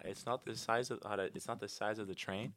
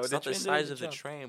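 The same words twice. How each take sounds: First: It is spoken slowly and deliberately. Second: It is spoken at a normal, quick pace.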